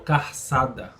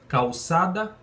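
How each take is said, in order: First: An r sound comes before the ç. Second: An l sound comes before the ç. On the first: "mas é trocado pelo R" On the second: "a palavra tem um L"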